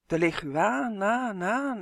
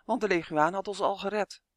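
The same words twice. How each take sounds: First: Drawn-out echo with swooping pitch. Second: Said in the usual way. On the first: A narrator's reading. Fairies repeating Justin's word in alarm, echoing. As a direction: echo the end of LEGUAAN in rising, falling waves. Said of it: "echoden de veeën".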